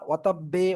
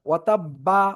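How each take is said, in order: First: The final b is followed by an 'e' vowel. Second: The final b is followed by an 'a' vowel. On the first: "এরকম না" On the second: "এরকম না"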